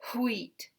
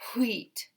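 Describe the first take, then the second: First: It is one syllable with a breathy start. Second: It is one syllable with a breathy start.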